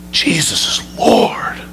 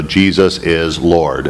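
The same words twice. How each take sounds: First: "Jesus is Lord." whispered slowly in awe; hushed reverent whisper; awed whisper. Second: Slow, empty recitation of "Jesus is Lord."; parroted by rote. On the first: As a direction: breathe "Jesus is Lord." as a sudden realization. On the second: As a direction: rattle off "Jesus is Lord." like rote words with no meaning. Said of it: "parrot out". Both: Shown as a demonstration.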